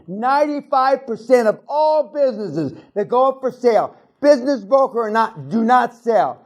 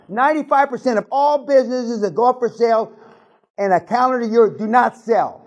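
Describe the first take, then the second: First: It is said slowly. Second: It is said at normal speed.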